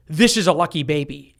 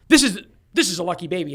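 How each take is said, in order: First: Lightly voiced calm doctor; steady, matter-of-fact doctor, barely acted; mild doctor's announcement in the speaker's own voice; doctor's line. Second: Fast, eager nurse repeating herself; mock-excited nurse, quick and a little high. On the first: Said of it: "doctor goes". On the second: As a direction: hurry the words out like a thrilled nurse. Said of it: "the nurse goes".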